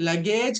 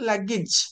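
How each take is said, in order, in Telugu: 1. చివరి అక్షరంలో పొడవైన అచ్చు ఉంది. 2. చివరి అక్షరం చిన్న 'ij'. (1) "లగేజ్ కాదు" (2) "దాన్ని ఇజ్ అని చెప్పాలి"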